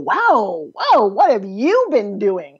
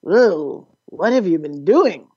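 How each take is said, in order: First: It sounds impressed and admiring. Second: It sounds disapproving and dismayed.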